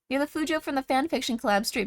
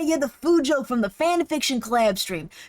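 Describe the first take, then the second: First: It is read in a plain, normal voice. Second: It is said in a put-on character voice.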